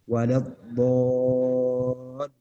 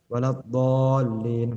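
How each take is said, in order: First: It is said slowly with the doubled letters held. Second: It is said quickly, rushing over the letters. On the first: The speaker calls it right. "harus memberi hak huruf" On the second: The speaker calls it wrong. "dibacanya secara cepat"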